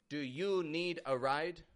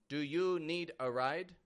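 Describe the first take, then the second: First: The voice falls at the end. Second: The same.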